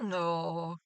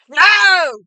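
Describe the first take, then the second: First: It is said softly and gently. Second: It is said loudly and forcefully.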